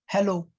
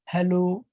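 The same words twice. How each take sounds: First: Hello is said flat and short. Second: Hello lingers a little, with a musical ring.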